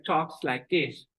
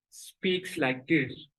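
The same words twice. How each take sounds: First: Slow demo with mouth skewed right; mother's lopsided-mouth speech; mouth twisted right. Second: Slow demo with a skewed mouth; father's lopsided-mouth speech; mouth twisted left. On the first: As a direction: talk out of the right side. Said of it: "Twisted to the right". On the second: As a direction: talk out of the left side. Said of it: "His mouth is twisted to the left". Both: Shown as a demonstration.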